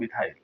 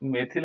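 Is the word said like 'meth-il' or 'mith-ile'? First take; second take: mith-ile; meth-il. First: The word ends in a long 'ile' sound. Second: The word ends in a short 'il' sound. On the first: This is the English reading of the term. "अंग्रेजी में हो जाता है मिथाइल" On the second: This is the Hindi reading of the term. "मेथिल हम हिंदी में पढ़ लेते हैं इसको"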